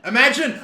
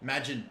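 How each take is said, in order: First: Higher and louder burst; excited shout. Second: Muttered lower and softer; quiet mutter. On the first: Gamer shouting at the screen, loud and excited. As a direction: fling it out as it sinks in. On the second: Gamer murmuring in disbelief, quiet and low. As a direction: say it under your breath to yourself. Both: Real, not acted.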